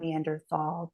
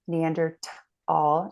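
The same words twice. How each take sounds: First: The middle consonant is a 'th' sound. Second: The middle consonant is a plain 't' sound. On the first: The speaker calls it wrong. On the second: The speaker calls it right. "they pronounce it t"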